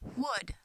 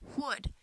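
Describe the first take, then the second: The two takes are said the same way.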